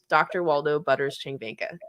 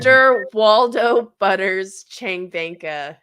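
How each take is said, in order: First: The name is said at normal speed. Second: The name is said slowly and carefully.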